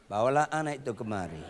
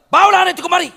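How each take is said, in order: First: Said in the usual way. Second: High, loud barked order; snapping command. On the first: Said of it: "Anda anti klimaks". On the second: Shown as a demonstration. Preacher demonstrating how Jesus snapped the order, loud and high. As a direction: bark the command sharply. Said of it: "Harus membentak".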